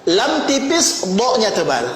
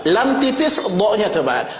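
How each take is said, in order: No difference in how they are said.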